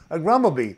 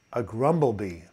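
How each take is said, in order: First: High, loud gleeful punchline; delighted high repeat of the pun; manic delight. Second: Said in the usual way. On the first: Real, not acted. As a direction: crow the punchline with glee. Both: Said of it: "didn't mean to be manic here".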